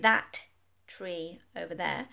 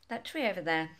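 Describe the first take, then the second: First: The t sound is pronounced twice. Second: The two t sounds merge into one. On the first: The speaker calls it wrong. "I'm not going to pronounce the T twice and say" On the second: The speaker calls it right. "the two T's merge together"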